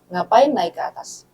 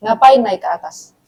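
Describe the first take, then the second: First: Slower, softer and gentle "Ngapain naik ke atas?"; asked kindly. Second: Said in the usual way. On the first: Retold or imitated. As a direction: ask it softly, like a patient older sibling. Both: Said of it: "Saya tanya baik-baik".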